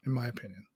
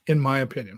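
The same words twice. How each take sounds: First: Much softer, almost under the breath; trailing off softly. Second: Said in the usual way. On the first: Real, not acted. Host repeating his view to the folks, fading quietly. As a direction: let it fade away to nothing. Repeats the phrase, then fades.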